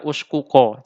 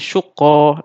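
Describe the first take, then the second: First: The two k sounds are split by a vowel. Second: The two k sounds merge into one doubled k. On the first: The speaker calls it wrong. "Ini juga tidak kita baca uskuko" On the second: The speaker calls it right. "tapi syukko langsung"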